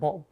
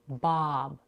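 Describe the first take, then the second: First: The vowel is not a long open ah. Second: The vowel is a long open ah. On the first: The speaker calls it wrong. "not Bob" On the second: The speaker calls it right. "we have the vowel ah as in father, which is a little elongated"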